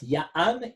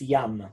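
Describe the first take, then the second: First: A glottal break splits the vowel into two. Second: The vowel flows as one syllable without a break. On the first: The speaker calls it wrong. "it's not Ya'am" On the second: The speaker calls it right. "it's Yam"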